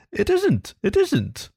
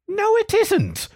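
First: "it isn't, it isn't" said higher with a gentle falling tune, easing the quarrel; soothing. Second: Much higher, slow indignant "No, it isn't" with "No" stressed and falling; indignant cry. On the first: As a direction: soothe a ruffled friend. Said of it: "replied the mole soothingly". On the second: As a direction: cry out in protest. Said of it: "cried the rat indignantly". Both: A narrator's reading.

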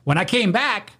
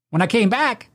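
The two takes are said the same way.

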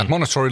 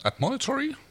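First: Admonitory settled firmly, stated as a fact; corrected reading of admonitory; confirmed pronunciation. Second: Admonitory tried out as a question with a rising pitch; puzzled first try at admonitory; unsure pronunciation. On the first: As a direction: say admonitory with sure, even emphasis. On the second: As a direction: test the word admonitory hesitantly, higher pitched. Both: Shown as a demonstration. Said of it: "not a word I've come across very often".

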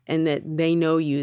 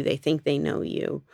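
First: Said in the usual way. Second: "think" leaned on as a correction; "they think they know you" with weight on "think"; stress on think. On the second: Shown as a demonstration. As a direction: push the word "think" to fix the claim.

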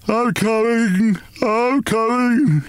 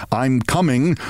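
First: High, slow, drowsy wail; slow sleepy wail. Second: Said in the usual way. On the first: Acted. Father waking groggily, answering the noise in a slow sleepy wail. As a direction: drag the words out, half asleep. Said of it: "he wailed in a slow, sleepy voice". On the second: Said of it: "detected in his "I'm coming".

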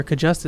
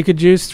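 First: Short "uh" in Cajuste, rhyming with "just". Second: Long "oo" in the second syllable of Cajuste. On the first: Offering cohosts the other option, Cajuste as "kuh-JUST". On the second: Asking cohosts how the tackle's name goes, Cajuste with "oo". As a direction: say Cajuste as "kuh-DOOST". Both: Shown as a demonstration. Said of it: "is it Cajuste or Cajuste?".

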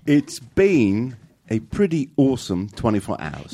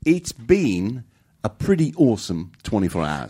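First: Slow mock Kiwi accent; New Zealand accent. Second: Slow mock Kiwi accent, second try; New Zealand accent. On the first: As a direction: carefully copy the New Zealand vowels. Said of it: "You did it!". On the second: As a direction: lean into the New Zealand vowels. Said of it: "You would be our representative". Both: Cohost repeating the clip in a New Zealand accent.

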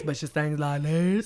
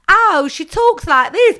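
First: Sung, low, soft and slow; mock singing voice. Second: High, loud, slow mocking; mock talking voice. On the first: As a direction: drop into the singing voice. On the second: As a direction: exaggerate the speaking voice. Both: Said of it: "It's like".

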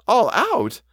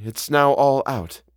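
First: High-pitched startled question; astonished echo. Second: Said in the usual way. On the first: A narrator's reading. Housekeeper echoes the governess's news, high and astonished. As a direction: throw the words back up high in disbelief.

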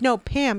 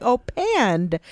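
First: Said in the usual way. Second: PAND with a D on the end; mispronounced Pam. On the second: Retold or imitated. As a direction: say "Pand", adding a D after the n. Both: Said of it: "Oh, the D is silent".

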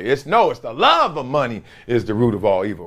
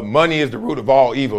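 First: "love" lifted and leaned on as the key word; stress on love. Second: Said in the usual way. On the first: Shown as a demonstration. Correcting a misquote for viewers, weight on "love". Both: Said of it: "the wrong way".

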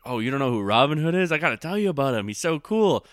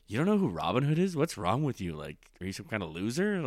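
First: Higher, louder, eager and delighted; excited friend. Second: Condescending. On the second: Snob mocking a friend's ignorance, condescending and scornful. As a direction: sneer at someone who doesn't know. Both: Retold or imitated. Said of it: "As opposed to".

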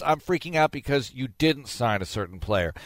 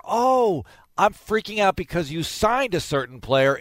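First: Said in the usual way. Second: Higher, hammed-up worried fan; mock fretting fan. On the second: Host mocking fans panicking over a signing, mock worried fan. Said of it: "It's never".

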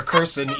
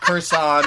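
First: "Kurson" with a weak second vowel, KUR-sun; second variant. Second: "Kursan" with a full second vowel, kur-SAHN; first variant. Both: Shown as a demonstration. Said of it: "either way".

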